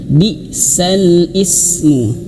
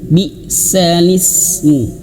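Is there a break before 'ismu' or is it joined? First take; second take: break; joined. First: There is a break between sal and ismu. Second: The words run together with no break before ismu. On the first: This is the regular underlying form. "harusnya di sini bacanya" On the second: This is the form actually recited. "tapi menjadi bi salismu"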